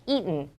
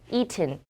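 First: The t sound is soft and weakened. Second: The t sound is clear and full.

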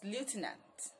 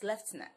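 First: The word begins with a 'loo' sound. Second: The word begins with a 'lef' sound. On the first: This is the American pronunciation. "But for the American pronunciation" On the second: This is the British pronunciation. "For the British pronunciation"

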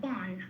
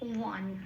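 First: The word begins with a b sound. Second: The word begins with a w sound. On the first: This is the Bengali-style pronunciation. The speaker calls it wrong. "এবার বানটা তো আমি বাংলায় বললাম" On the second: This is the Sanskrit pronunciation. The speaker calls it right. "বয়ের উচ্চারণ হবে ও plus অ"

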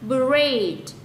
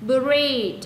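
The two takes are said the same way.

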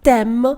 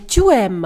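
First: The vowel of tu is dropped entirely. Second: The vowel of tu is fully pronounced. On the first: "а «тем»" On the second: "не «тюем»"

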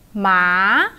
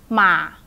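First: The pitch rises from low to high. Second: The pitch is short and low. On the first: "And the rising one" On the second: "And a short low one"

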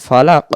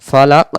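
The two takes are said the same way.

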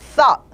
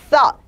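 First: The vowel is rounded like oh. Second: The vowel is open, between ah and uh. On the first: The speaker calls it wrong. "thought가 아니라" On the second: The speaker calls it right. "약간 어에서 아 쪽으로 벌리는 발음"

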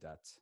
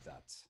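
First: The word begins with a d sound. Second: The word begins with a th sound. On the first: The speaker is concentrating a little more. "when they're concentrating a little more, they'll say dat" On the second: The speaker rarely manages the native sound. "rarely say that"

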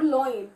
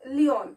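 First: The first vowel sounds like oy. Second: The first vowel sounds like ee. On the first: "some of the students pronounce it as loin. That is totally incorrect" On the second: "they pronounce it as leon"

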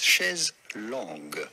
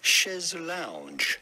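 First: The second word is said like 'long'. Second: The second word is said like 'lounge'. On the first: This is the original French form. "the original phrase was chaise long" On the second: This is the English-adapted form. "modified to be more pronounceable, I suppose, in English"

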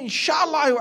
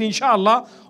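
First: It is said in an earnest, sincere tone. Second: It is said in a dismissive, noncommittal tone. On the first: The speaker really intends to do it. "telling you with a little bit more genuineness. You can hear it in his tone" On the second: The speaker has no intention of doing it. "The way he says that, Inshallah, already tells you his intention"

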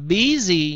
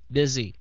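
First: It sounds like the two Vietnamese syllables bí gì. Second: The first syllable is like beer, then a z. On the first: The speaker calls it wrong. "Đừng có đọc là bí gì nhá" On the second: The speaker calls it right. "Đọc chữ bia và chữ z"

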